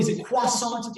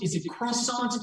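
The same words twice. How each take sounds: First: Croissant said the French way, like kwa-sahn; French accent. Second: Said in the usual way. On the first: Shown as a demonstration. Muffin lawyer mocking the fancy French croissant. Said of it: "say it with an accent". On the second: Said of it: "or say, normally".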